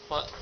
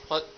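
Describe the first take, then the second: Both takes have the same delivery.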